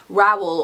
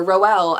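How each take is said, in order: First: Rowell said as ROW-ell, first syllable like row a boat; Rowell, rhyming with towel; first way of saying Rowell. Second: Rowell said as ROH-ell, first syllable like roll; other way of saying Rowell. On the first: Naming the author, Rowell said like towel. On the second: Offering viewers their version, Rowell like roll. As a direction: Rowell with a long o, like bowl. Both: Shown as a demonstration. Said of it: "as some of you say".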